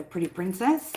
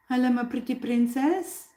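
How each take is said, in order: First: Said in the usual way. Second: High cooing pet talk; purring cat voice. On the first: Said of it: "when you call her pretty princess". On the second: Real, not acted. Owner greeting her favourite cat, high purring coo. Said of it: "like, a purring cat voice".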